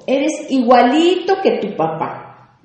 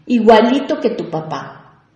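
First: Slow, higher, contemptuous jab; scornful tone. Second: Said in the usual way. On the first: Shown as a demonstration. Parent scolding the child, contemptuous. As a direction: sneer it like an insult. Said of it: "tiene un tono despectivo". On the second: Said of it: "Y este es muy común".

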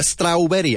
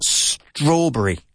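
First: STRAWBERRY said as "strowl-weddy"; mispronounced strawberry. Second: STRAWBERRY as "STRAW-bree", drawn out slowly; teacher's careful "strawb-ree", first syllable stressed; correct strawberry. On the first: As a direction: mimic the learner error "straul-werry" for strawberry. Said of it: "I hear strawberry a lot". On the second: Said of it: "I hear strawberry a lot. It's strawberry". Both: Shown as a demonstration.

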